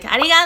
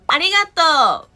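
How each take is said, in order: First: It is said with an Osaka dialect accent. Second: It is said with a standard Japanese accent. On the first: "in Osaka, we say like" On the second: "everybody's like"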